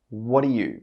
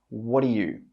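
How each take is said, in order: First: The three words run together as one sound. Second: The same.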